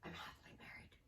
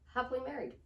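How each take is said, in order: First: It is said softly, sounding depressed. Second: It is said firmly, sounding confident.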